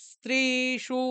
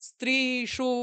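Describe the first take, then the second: No difference in how they are said.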